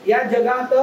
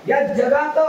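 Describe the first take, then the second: No difference in how they are said.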